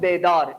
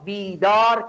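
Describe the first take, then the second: First: The first vowel is a short 'e' sound. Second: The first vowel is a long 'ee' sound. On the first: The speaker calls it wrong. "ना नगु बेदार" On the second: The speaker calls it right. "बीदार कर"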